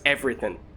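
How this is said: British accent, ending clipped to an 'in' sound. "In the U K, it's everything, or something along those lines"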